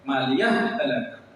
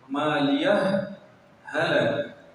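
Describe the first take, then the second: First: The two h sounds merge into one doubled h. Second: The two h sounds are pronounced separately. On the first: The speaker calls it wrong. "और एक इदगाम के साथ" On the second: The speaker calls it right. "एक तो आप इजहार के साथ पढ़िए"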